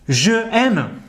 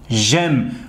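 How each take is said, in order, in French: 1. Les deux voyelles sont prononcées, sans élision. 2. La première voyelle tombe et les mots se lient. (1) "Je aime, ça fait lourd" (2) "ويساوي j'aime ونبدل هذا الأ بapostrophe"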